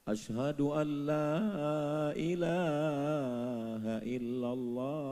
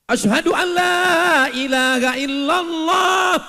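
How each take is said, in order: First: It is said softly and gently. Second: It is called out loudly, like a prayer call.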